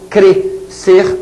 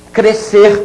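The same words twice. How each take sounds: First: Crescer split in two with a pause in the middle; syllables separated. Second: Said in the usual way. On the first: Shown as a demonstration. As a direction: say Crescer as cre, pause, cer. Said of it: "o S para um lado". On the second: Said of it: "o S não é pronunciado".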